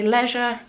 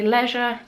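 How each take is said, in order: First: It is said with a British pronunciation. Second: The same.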